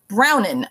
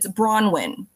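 First: The first syllable sounds like the colour 'brown'. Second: The first syllable is 'bron', without a 'w' sound. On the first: The speaker calls it wrong. "people like to turn her into a color because the W" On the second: The speaker calls it right. "it's Bronwyn"

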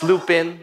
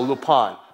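First: It is said with an English pronunciation. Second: It is said with a French pronunciation.

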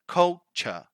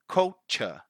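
Both takes have the same delivery.

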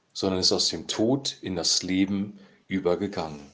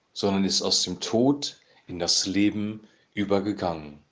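The two takes are said the same way.

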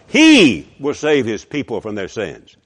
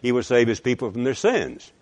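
First: It is said with strong stress on 'he'. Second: It is said plainly, with no stress on 'he'.

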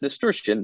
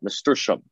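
First: The word ends with an '-ian' sound. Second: The word ends with an '-ium' sound. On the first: The speaker calls it right. "the correct term is nasturtium" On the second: The speaker calls it wrong. "not nasturtium"

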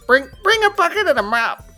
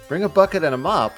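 First: The line is said in a put-on goblin-like voice. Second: The line is said in a smooth natural voice. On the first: The speaker calls it right. "I gotta do a Ben Shapiro voice. It's gotta be more goblin-y" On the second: The speaker calls it wrong. "my voice is too sexy"

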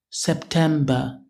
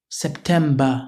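The two takes are said the same way.

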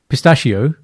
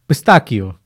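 First: The word is pronounced the English way. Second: The word is pronounced the Italian way. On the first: The speaker calls it wrong. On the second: The speaker calls it right.

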